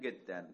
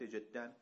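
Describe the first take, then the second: First: The word begins with a hard g sound. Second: The word begins with a j sound.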